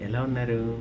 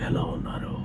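First: The voice is plain, at normal pitch. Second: The voice is deep, with slow breathy release. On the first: "ప్లెయిన్గా" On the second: "base voice చెప్పే నేను ఊపిరి తీసుకుని స్లోగా వదులుతూ"

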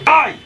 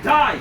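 First: The word is said strongly, with force. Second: The word is said softly and weakly. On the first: The speaker calls it right. "একটা pressure দিয়ে বলবো" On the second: The speaker calls it wrong. "এরকম করে বলবো না"

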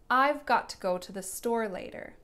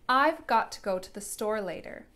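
First: Each word is said clearly and separately. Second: Each word is said clearly and separately.

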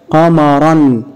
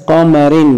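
First: The word ends in an -an sound. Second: The word ends in an -in sound. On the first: "عند تنوينها بالفتح" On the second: "عند تنوينها بالكسر"

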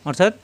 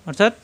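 The two takes are said the same way.

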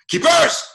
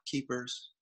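First: It is shouted loudly and forcefully. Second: It is called softly, without force.

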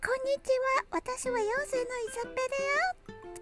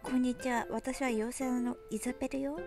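First: It is said in a cute, sweet voice. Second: It is said in a plain, normal voice.

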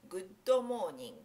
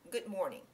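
First: It is said as Japanese romaji, with added vowels. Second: It is said the English way, no added vowels. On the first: The speaker calls it wrong. "これローマ字読みをしてしまうと" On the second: The speaker calls it right. "英語でおはようっていうときにGood morning"

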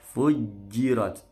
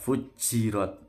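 First: The j sound is crisp with no escaping air. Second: The j sound leaks with extra escaping air. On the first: The speaker calls it right. "jimnya tidak boleh bocor" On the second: The speaker calls it wrong. "tidak fujirat"

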